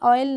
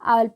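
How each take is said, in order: First: The word begins with an open 'aw' vowel. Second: The word begins with an open 'ah' vowel. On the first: The speaker calls it wrong. "ऑयल नहीं पढ़ते हैं" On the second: The speaker calls it right. "आयल पढ़ते हैं"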